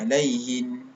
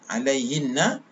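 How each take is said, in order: First: The word ends on a plain n sound. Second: The word ends with a doubled n and vowel. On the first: Reading stops at this word. "hendaklah matikan nun syaddah tersebut" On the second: Reading continues past this word. "nun syaddah"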